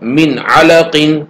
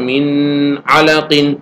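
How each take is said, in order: First: The n is said plainly without a nasal hum. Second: The n is held with a nasal hum. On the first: The speaker calls it right. "बगैर गुन्ना के पढ़ेंगे" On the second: The speaker calls it wrong. "मैं यूं पढ़ूं ... तो यह गलत होगा"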